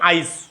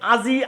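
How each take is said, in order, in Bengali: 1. মাঝের ব্যঞ্জনের আগে একটি i শোনা যায়। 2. i শুধু শেষে শোনা যায়।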